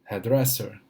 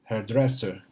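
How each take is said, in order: The two takes are said the same way.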